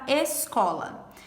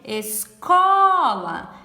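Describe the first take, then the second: First: Said in the usual way. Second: "Escola" called out loud, with the middle syllable stretched long; calling the word. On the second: Shown as a demonstration. Teacher calls the word to find its tonic syllable, "Escola" with "co" drawn out. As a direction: call out "Escola", holding a big, long stress on "co". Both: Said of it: "A gente tem que chamar a palavra".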